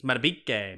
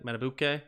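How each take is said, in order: First: Matabike with "beek" in the middle; correct name pronunciation. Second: Matabuke with "boo" in the middle; mistaken name pronunciation. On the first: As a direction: say Matabike as "matta-BEEK-ay", falling. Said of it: "His name is pronounced Matabike". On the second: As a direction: say Matabuke softly as "matta-BOO-kay". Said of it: "like I said". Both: Shown as a demonstration.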